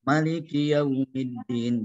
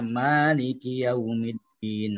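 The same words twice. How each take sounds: First: The first vowel 'ma' is kept short. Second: The first vowel 'ma' is held long. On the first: "Pendek ya" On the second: "Ma maknya dipanjangin"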